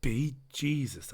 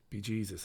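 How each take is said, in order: First: Slower, lightly Irish "Be Jesus"; repeated Irish exclamation. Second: Quiet, lightly Irish "Be Jesus"; mock Irish exclamation. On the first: Retold or imitated. Repeating it to the listeners, a slow mock Irish exclamation. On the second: To the listeners, a quiet mock Irish exclamation. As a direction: toss off "Be Jesus" in a soft Irish lilt. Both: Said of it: "I said".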